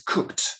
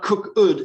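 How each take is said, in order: First: The ending is a t sound, one syllable. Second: The ending is a separate second syllable. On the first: The speaker calls it right. "it's cooked. One syllable. T" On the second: The speaker calls it wrong. "it's not cook ud"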